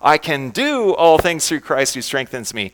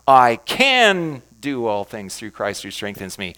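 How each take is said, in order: First: The word "do" is stressed. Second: The word "can" is stressed.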